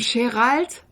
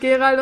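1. Der Name wird auf Französisch ausgesprochen. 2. Der Name wird auf die übliche Art ausgesprochen. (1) "einer sagt zu ihm Gérald" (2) "anstatt Gérald"

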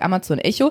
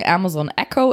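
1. Der Name wird auf deutsche Art ausgesprochen. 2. Der Name wird auf englische Art ausgesprochen. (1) "Ich sage Amazon Echo" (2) "Coole Leute sagen Amazon Echo"

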